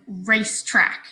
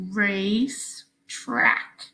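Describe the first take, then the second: First: Said in the usual way. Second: Very slow, race and track held apart. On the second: Shown as a demonstration. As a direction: stretch Racetrack out, one syllable at a time. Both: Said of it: "Slow it down if you need to".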